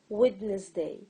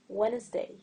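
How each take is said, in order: First: Every letter is sounded, including the D. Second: The D is silent, two syllables.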